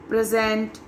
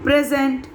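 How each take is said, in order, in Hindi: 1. Stress दूसरे syllable पर है। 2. स्ट्रेस पहले सिलेबल पर है। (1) "जब हम एज ए वर्ब यूज करते हैं तो लास्ट के syllables" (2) "When the word is used as a noun, the stress is on the first syllable"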